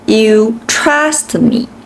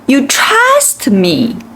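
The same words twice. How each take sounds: First: The word trust gets no special stress. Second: The word trust is stressed and stands out. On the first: "instead of saying" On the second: "Trust is the word that I think is important in this sentence"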